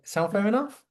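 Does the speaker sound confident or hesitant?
hesitant. It is asked in a timid, hesitant tone. The speaker is nervously seeking approval. The speaker calls it wrong. "It's not like, ... Is that okay? Eh, I'm not treading on eggshells"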